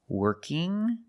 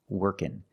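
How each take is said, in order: First: The ending is said with the nasal ng sound. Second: The ending is said with a plain n sound. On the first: "with the ng sound" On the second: "you can also say workin'"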